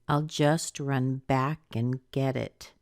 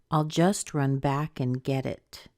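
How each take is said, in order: First: The word back carries the strongest stress. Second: The same.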